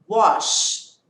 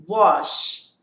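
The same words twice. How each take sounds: The two takes are said the same way.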